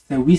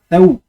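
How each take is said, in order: First: A full i vowel follows the w. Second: No vowel follows the w; it closes the syllable. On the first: The speaker calls it wrong. "ou tawi" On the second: The speaker calls it right. "ça fait taou"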